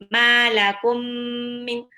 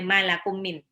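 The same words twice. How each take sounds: First: The merged m sound is held long. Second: The merged m sound is cut short. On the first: The speaker calls it right. "tapi ditahan" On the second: The speaker calls it wrong. "nggak boleh malakum min"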